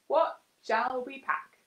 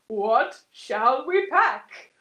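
First: It is said in a normal voice. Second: It is said in a deep voice.

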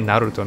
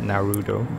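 First: The name is pronounced with Japanese-style syllables. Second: The name is pronounced with English-style syllables. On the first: The speaker calls it right. "I should say Naruto" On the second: The speaker calls it wrong. "not Naruto"

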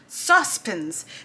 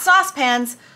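First: It is said with a British accent. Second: It is said with an American accent. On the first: The speaker calls it right. "Because that's the way you say it" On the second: The speaker calls it wrong. "Not saucepans"

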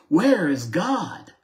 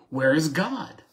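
First: It is asked loudly with a raised voice. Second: It is asked more sternly and somewhat louder.

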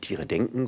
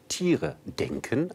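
First: The stress falls on the word denken. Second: The stress falls on the word Tiere. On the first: Animals themselves are thinking. The speaker calls it wrong. "nicht Tiere denken" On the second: Humans think about animals. The speaker calls it right. "sondern Tiere denken"

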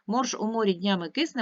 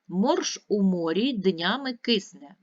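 First: It is read at the quickest pace. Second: It is read at an ordinary, steady pace.

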